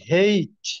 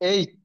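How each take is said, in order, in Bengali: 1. অক্ষরের নামটি h-এর ধ্বনি দিয়ে শুরু হয়। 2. অক্ষরের নামটি একটি স্বরবর্ণ দিয়ে শুরু হয়। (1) "আরেকটা হচ্ছে হেইচ হয়" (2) "একটা সাধারণত আমরা যেটা করে এইচ"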